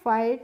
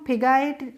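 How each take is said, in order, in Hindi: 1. शब्द में कोई g की आवाज़ सुनाई नहीं देती। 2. स्वर से पहले g की आवाज़ सुनाई देती है। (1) "फाइट और टाइट पढ़ते हैं" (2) "इस तरीके से नहीं पढ़ते हैं"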